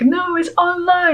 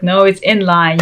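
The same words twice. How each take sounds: First: High-pitched mocking contradiction; mock insistence. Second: Said in the usual way. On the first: Followers arguing back on Instagram, high mock insistence. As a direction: imitate objectors in a much higher voice.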